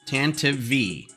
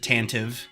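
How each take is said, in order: First: The name ends with a separate letter-V sound. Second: The name ends in a short 'tive' sound. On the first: The speaker calls it right. "it's pronounced Tanta V four" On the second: The speaker calls it wrong. "everybody and their brother pronounces it Tantive"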